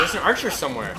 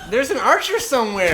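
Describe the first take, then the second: First: Loud warning call; alarmed call. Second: Higher, louder warning shout; louder alarmed shout. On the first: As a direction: call it out urgently. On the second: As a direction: shout it out to be heard. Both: Real, not acted. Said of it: "repeated louder".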